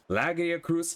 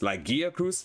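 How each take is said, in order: First: The stress is on the first syllable. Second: The stress is on the second syllable.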